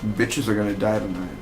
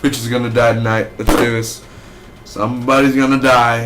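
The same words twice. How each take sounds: First: Hushed villain thought; imagined thought. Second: Louder, eager villain line; mock hyped menace. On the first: Retold or imitated. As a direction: mutter the inner thought. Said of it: "that moment he's thinking". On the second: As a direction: pump yourself up for the kill. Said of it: "he was like".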